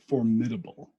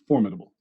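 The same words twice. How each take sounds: First: The stress is on the second syllable. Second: The stress is on the first syllable. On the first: The speaker calls it wrong. "So I emphasized the mid" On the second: The speaker calls it right. "says that it's formidable"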